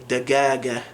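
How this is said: The word is said with hard G sounds. This is the Yemeni form. "they would say dagaga"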